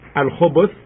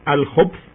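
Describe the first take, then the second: First: A vowel is sounded after the b. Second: No vowel is sounded after the b. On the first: "as you hear me pronouncing it" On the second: "making no movement on the letter ba"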